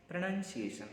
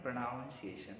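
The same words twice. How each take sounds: First: Pronunciation with 'nun' in the middle; correct pronunciation. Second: Pronunciation with 'noun' in the middle, slowly; slow, soft 'pro-noun-ciation' for pronunciation; wrong pronunciation. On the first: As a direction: say Pronunciation as 'pruh-nun-see-AY-shun'. (Pronunciation में बीच में 'नन' बोलें) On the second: (pronunciation में धीरे से 'नाउन' बोलें) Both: Shown as a demonstration. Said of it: "not pronunciation".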